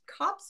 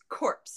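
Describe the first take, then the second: First: The vowel is short, as in 'cop'. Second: The vowel is long, as in 'core'. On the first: "I've always pronounced copse of trees" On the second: "as corpse of trees, which apparently is not how you say it"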